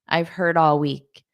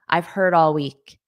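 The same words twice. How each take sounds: Both takes have the same delivery.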